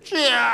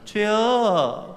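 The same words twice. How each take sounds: First: It is called out with desperate earnestness. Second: It is called out lightly, without earnestness.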